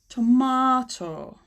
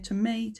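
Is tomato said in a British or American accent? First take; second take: British; American. First: It is said in a British accent. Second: It is said in an American accent. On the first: "the long sound again" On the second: "Americans would say tomato"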